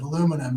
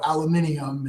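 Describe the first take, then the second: First: It is said with an American pronunciation. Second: It is said with a British pronunciation. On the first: "instead of" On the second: "I do anglify"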